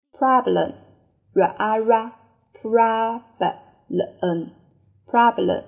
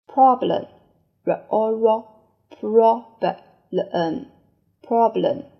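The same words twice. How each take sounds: First: "problem" with an open ah vowel, PRAH-blem; American problem. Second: "problem" with a rounded short o, PROB-lem; British problem. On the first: Teacher drilling students, American "problem". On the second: Teacher giving the second reading, British "problem". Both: Shown as a demonstration. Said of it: "第二种读法".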